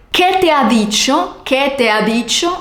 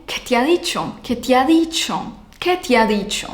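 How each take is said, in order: First: "¿Qué te ha dicho?" with each vowel clear, rising; full question. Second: Blur "¿Qué te ha dicho?" vowels into one flow; fused vowels. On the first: Teacher showing the unfused form. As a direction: ask "¿Qué te ha dicho?" carefully. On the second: Teacher showing vowel fusion. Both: Shown as a demonstration. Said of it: "se convierte en".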